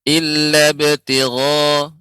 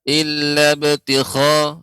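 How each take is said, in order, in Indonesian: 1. Konsonannya adalah gh yang halus tanpa gesekan. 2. Konsonannya condong ke kh yang kasar dan bergesekan. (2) "tidak illa ibtigha. Nah, ini hampir sedikit masuk ke huruf kha"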